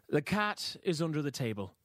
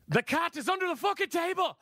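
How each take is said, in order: First: It is said calmly and confidently. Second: It is said with furious frustration.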